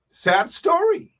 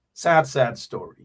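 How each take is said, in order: First: High, slow, drawn-out lament on "sad story". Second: Said in the usual way. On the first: Real, not acted. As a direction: stretch it out high and mournful. Repeating the sad news.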